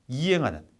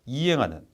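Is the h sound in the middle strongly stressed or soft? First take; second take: soft; soft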